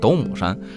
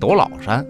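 First: The middle syllable is pronounced mu. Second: The middle syllable is pronounced lao. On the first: The speaker calls it right. "其实念斗母山" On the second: The speaker calls it wrong. "很多人念斗姥山"

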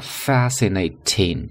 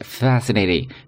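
First: The last syllable starts with a clear t sound. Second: The last syllable starts with a d-like sound. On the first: "注意读作fascinating" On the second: "美国人把最后一个音节开头的t 会读d"

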